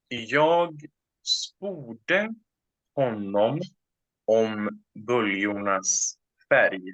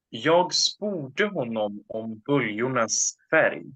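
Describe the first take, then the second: First: The sentence is spoken very slowly. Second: The sentence is spoken at normal speed.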